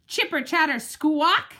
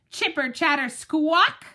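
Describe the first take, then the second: First: Squirrel screech. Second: Squirrel chatter. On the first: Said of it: "he screeches". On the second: Squirrel noise imitated. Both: Acted.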